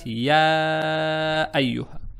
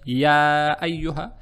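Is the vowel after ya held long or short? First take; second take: long; short. First: The vowel after ya is held very long. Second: The vowel after ya is held briefly. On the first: "тянуть по максимуму, то есть шесть раз" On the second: "тянуть по минимуму, то есть два раза"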